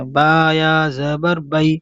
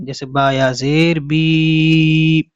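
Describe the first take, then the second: First: با یا زبر بئی with بئی short and soft; soft quick ai. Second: جیسے با یا زیر بی with بی stretched into a long ee; long ee drawn out. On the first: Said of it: "نرم آواز کے ساتھ جلدی". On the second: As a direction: drag out the final بی slowly. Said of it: "کھینچ کر کے پڑھیں گے". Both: Shown as a demonstration.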